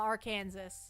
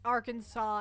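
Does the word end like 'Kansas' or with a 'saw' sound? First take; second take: Kansas; saw. First: The word ends like the word 'Kansas'. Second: The word ends with a 'saw' sound. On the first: This is how the spelling would suggest it. "and not Arkansas" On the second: This is the accepted pronunciation. "why it's Ar- Arkansas"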